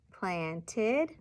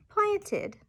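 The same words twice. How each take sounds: First: "Planted" slowly split into plant and ed; syllable-by-syllable "Planted"; parts separated. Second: "planted" joined quickly, high start and falling end; whole word "planted" in a high falling tune; blended new word. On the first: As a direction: say "Planted" in two parts, left hanging. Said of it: "substituting parts of a word". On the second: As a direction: slide "planted" together, pitched way up then dropping. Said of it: "making a new word". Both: Shown as a demonstration.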